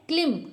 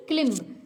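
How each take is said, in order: First: क्लिम closing on M; silent B. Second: क्लिम्ब with B sounded at the end; B pronounced. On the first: Teacher answering her own question for learners, क्लिम with silent B. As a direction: drop the B from क्लिम. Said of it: "हम इसको क्या पढ़ते हैं". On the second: Teacher contrasting the mistake for learners, क्लिम्ब with audible B. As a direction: voice the last B in क्लिम्ब. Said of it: "ना कि क्लिम्ब". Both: Shown as a demonstration.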